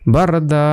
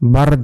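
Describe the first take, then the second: First: The word ends on a stretched long a vowel. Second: The word ends on a consonant with no vowel. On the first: The word has an extra alif before the stop mark. "একালিপ টেনে পড়তে হবে এখানে বারদা" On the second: The word has no extra alif, only a stop mark. "যদি একালিপ না থাকতো যদি থামার চিহ্ন থাকতো এখানে হতো বারদ"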